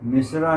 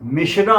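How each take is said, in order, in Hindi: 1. बीच का व्यंजन सादा 's' ध्वनि है। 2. बीच का व्यंजन 'sh' ध्वनि है।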